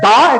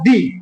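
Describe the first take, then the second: First: The word ends with a short 'uh' vowel. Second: The word ends with an 'ee' vowel. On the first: "একটা হচ্ছে দা" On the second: "একটা দি"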